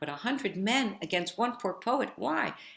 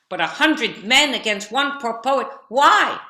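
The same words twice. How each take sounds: First: The line is said at a soft volume. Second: The line is said at a loud volume. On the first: "So I said the line"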